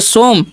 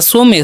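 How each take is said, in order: First: It is said with an 'o' vowel: 'som'. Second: It is said with an extra final vowel: 'so-meh'. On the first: "सोमे नहीं पढ़ना है ना सोम पढ़ना है" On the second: "सोमे नहीं पढ़ना है"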